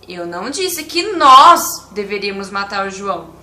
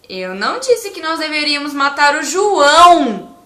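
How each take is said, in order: First: The word 'nós' is stressed. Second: The word 'João' is stressed. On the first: Other people were supposed to do it. "Se eu enfatizar a, a palavra nós" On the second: A different person was the intended victim. "E se eu enfatizar a palavra João"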